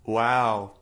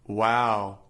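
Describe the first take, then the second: No difference in how they are said.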